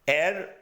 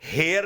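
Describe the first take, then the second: First: The word begins with a vowel, no h. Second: The word begins with an h sound. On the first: The speaker calls it right. "एयर पढ़ते हैं" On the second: The speaker calls it wrong. "हेयर नहीं पढ़ते"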